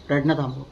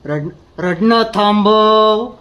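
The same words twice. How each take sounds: First: 낮고 차갑게 조용히 "रडणं थांबव"라고 명령; cold quiet order. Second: "रडणं" 천천히 힘주어 세게 끊어서; 억누른 분노로 또박또박 명령하듯; slow stern command. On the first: Quiet cold order to stop crying. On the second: Repeated order, louder and slow. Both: Acted.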